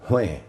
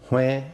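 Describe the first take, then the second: First: The word is said on a low tone. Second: The word is said on a mid tone. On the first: It means to count. "low tone, means to count" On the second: It means to buy. "mid-tone, means to buy"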